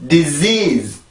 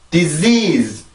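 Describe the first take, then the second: The two takes are said the same way.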